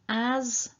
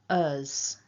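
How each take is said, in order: First: The vowel is a full open a sound. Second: The vowel is a short reduced schwa sound. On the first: "I'm going to say the strong and then the weak" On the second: "I'm going to say the strong and then the weak"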